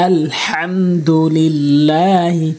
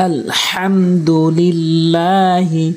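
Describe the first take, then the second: Both takes have the same delivery.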